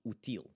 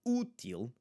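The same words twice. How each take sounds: First: Útil as oo-TEEL, short first syllable; wrong stress on last syllable. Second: Útil as OO-teel, long stressed first syllable. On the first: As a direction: move the stress to 'til' in 'útil'. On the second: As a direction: punch the first U of 'Útil'. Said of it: "just emphasize that first U". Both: Shown as a demonstration.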